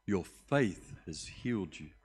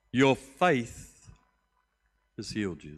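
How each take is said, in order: First: Said in the usual way. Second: A ringing declaration; loud proclamation. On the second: Acted. Jesus loudly declaring to Bartimaeus that he is healed. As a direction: proclaim it loud on your faith.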